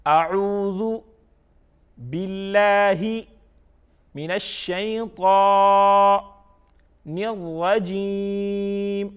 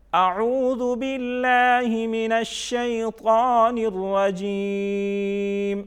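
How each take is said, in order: First: Slow chant with a pause after اعوذ and after باللہ; each part separate, الشیطان and الرجیم held long and level; recited by parts. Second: اعوذ باللہ flowing into the rest without pauses, higher chant; one slow connected chant, الرجیم held long and level; recited joined together. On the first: Teacher leading learners part by part, slow separated recitation. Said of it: "یہ ہم نے by parts پڑھ لیا". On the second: Teacher reading it whole for learners, joined-up slow recitation. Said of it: "اب ہم اس کو اکٹھا پڑھتے ہیں". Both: Shown as a demonstration.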